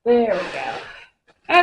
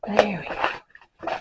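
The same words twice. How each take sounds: First: Slow drawn-out relieved sing-song. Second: Slow and strained with effort. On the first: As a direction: stretch it out with relief. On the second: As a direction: squeeze it out mid-struggle. Straining with canvas. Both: Real, not acted.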